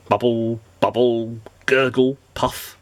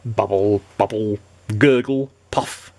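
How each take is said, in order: Both takes have the same delivery.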